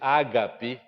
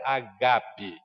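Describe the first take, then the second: First: It is said the common Portuguese way. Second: It is said the original Greek way. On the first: This is how most people say it. "a maioria das pessoas diz ágape" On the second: This is how it is said in Greek. "na língua grega é agape"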